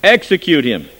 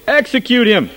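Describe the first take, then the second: First: Loud shouted demand; crowd cries out. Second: Higher, louder frenzied shout; crying out more. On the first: Crowd shouting to the governor for execution, loud cry. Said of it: "they cried out again". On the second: Crowd shouting even harder for execution, high and loud. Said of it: "cried out the more exceedingly". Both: A narrator's reading.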